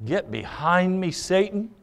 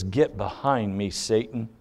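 First: Blunt command repeated softly, pitch lifted; quiet but pointed rebuke. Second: Low, quiet, blunt command; blunt rebuke. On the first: Jesus rebuking Peter a second time, bluntly. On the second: Jesus rebuking Peter, very bluntly. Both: Retold or imitated. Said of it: "speaks to him very bluntly and says".

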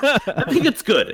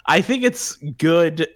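First: Drawn-out doubtful praise; hedging. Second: Slow grudging praise; hedging. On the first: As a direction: say it slowly, not quite meaning it. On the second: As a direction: stretch it out with a caveat implied. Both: Real, not acted.

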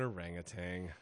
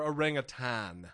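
First: Orangutan with a final "tang"; common pronunciation. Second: Orangutan with a final "tan"; experts' pronunciation. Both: Shown as a demonstration. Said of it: "the wildlife experts like to say".

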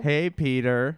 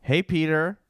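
First: A little rounder cartoon greeting; Cleveland Brown. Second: Lightly voiced cartoon greeting; tentative first stab at a character hello; Cleveland Brown. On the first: Actor following his coach's note, slightly rounded character voice. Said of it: "Make, make a little round". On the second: Actor trying out an audition line, lightly put-on voice. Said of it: "I'm gonna audition to be Cleveland Brown".

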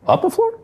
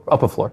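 First: Rising question on "floor", pitched up; unsure question. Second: Said in the usual way. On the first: Real, not acted. Host checking the floor number, a steep rising question. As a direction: ask "up a floor?" with a steep rise on "floor".

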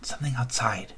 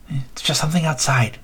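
First: Put-on softer, hushed child voice; hushed kid voice. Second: Said in the usual way. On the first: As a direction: murmur it to reassure the others. Kid dismissing the noise.

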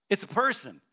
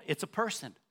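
First: "person" punched louder and higher; emphatic repeat. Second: Said in the usual way. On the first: Shown as a demonstration. Preacher repeating to the congregation, "It's a person" louder and higher. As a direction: drive the word "person" home.

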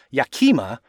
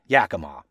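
First: Yakima said YAH-kee-muh, with ah and ee; ridiculous mispronunciation. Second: Yakima said YAK-uh-maw, ending in maw; local pronunciation. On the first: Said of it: "One even mispronounced it as Yakima". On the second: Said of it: "pronounce it with a maw at the end". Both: Shown as a demonstration.

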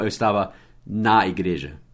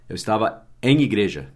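First: "na" destacado, depois de breve pausa; ênfase no NA. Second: "em" destacado em "em igreja"; ênfase no EM. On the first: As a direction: corrija marcando bem a palavra "na". (destaque didático no "na") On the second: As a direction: marque "em" como a palavra a corrigir. (destaque didático no "em") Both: Shown as a demonstration. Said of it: "não eu estava na igreja".

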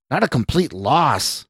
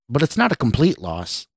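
First: Understated indignant shout; mild shout. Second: Said in the usual way. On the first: A narrator's reading. Suited man rebukes the scientist, mildly shouted. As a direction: throw it back in mild outrage. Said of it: "the suited man shouted".

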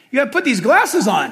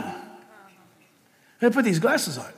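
First: Announcer-style "you gotta put these glasses on", stress on "glasses"; brisk ride-attendant instruction; tram guide instruction. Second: Softer and slow, leaning on "put"; hushed, deliberate retelling of the instruction; slow quiet repeat. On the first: Retold or imitated. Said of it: "and they tell you". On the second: Shown as a demonstration. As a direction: drop the voice and say "You gotta put these glasses on" slowly.

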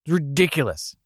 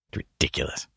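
First: Indignant. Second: Low flat deadpan. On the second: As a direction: mutter it dryly. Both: Acted. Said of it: "repeated line".

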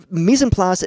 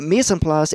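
First: Said in the usual way. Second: Mise en place said with a hammed-up French accent; mock French chef accent; bad French accent. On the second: Shown as a demonstration. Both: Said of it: "I know that's a really bad French accent".

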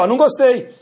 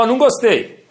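First: Firm, high and loud objection; assertive, not angry. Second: Mock-stern, raised and louder; feigned anger. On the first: Parent correcting a child who lied, assertive rather than angry. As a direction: state disapproval assertively without real anger. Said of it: "não bravo, ser assertivo". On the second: Parent pretending to be cross at a child's lie, feigned anger. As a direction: put on a cross parent's firm objection. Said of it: "fingir que tá bravo". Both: Shown as a demonstration.

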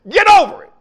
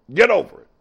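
First: High, loud preaching shout. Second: Said in the usual way. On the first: Real, not acted. Preacher telling the congregation to move on, shouting. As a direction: fling it at the crowd.

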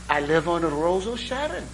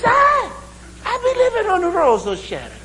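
First: Lightly put-on Irish brogue at normal pitch; an understated Irish accent, close to own voice; mock Irish brogue. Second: Shouted mock Irish brogue. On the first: Irishman naming his street, lightly voiced Irish brogue. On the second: Irishman repeating his street in delight, shouted mock Irish brogue. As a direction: shout it gleefully in a Jamaican-tinged Irish accent. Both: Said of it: "my Irish brogue sounds a lot like Jamaican".

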